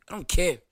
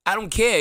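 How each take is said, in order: First: Said in the usual way. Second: Defiant shout. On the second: Real, not acted. Repeated, yelled back higher.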